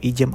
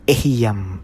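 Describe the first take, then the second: First: The word is said in two syllables. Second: The word is said in three syllables. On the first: The speaker calls it wrong. "Hindi po Ijam ang bigkas yan" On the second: The speaker calls it right. "Yan po ang tamang bigkas dyan"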